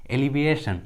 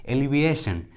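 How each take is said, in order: Both takes have the same delivery.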